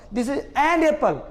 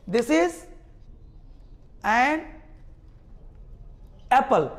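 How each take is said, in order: First: This is an apple said slowly; slow demo. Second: This is, an, Apple with long pauses between; word by word. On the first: Teacher slowing the sentence down for students. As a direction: draw each word out. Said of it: "अब बोल रहे हैं". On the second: Teacher separating words so class hears the n. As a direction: pause after every word. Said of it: "एन का sound तो बोल के देखो". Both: Shown as a demonstration.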